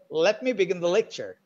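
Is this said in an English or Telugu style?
English. Syllables are reduced and linked in English rhythm. The speaker calls it right. "So in the English way"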